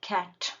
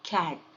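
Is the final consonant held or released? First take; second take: released; held. First: The final t is fully released. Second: The final t is held, not released. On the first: "ನಾನು ಪೂರ್ತಿ ಟೀನ release ಮಾಡ್ತಾ ಇದ್ದೀನಿ" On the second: "held consonant ಮಾಡ್ತಾ ಇದ್ದೀನಿ"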